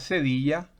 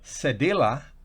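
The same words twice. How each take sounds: First: The word is pronounced with Spanish sounds. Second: The word is pronounced with English sounds. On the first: "que en español se pronuncia cedilla" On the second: "así se pronuncia"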